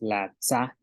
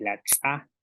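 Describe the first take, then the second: First: Said in the usual way. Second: "tsa" with an ejective, glottal-popped ts; glottalised TS. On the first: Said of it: "con glotal o con glotal". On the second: Shown as a demonstration. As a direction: pop the ts of "tsa" with closed glottis, gap before the vowel. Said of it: "con la glotal".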